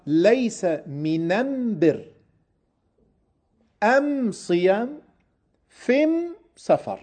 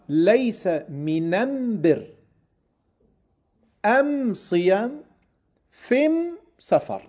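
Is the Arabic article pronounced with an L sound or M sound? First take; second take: M sound; M sound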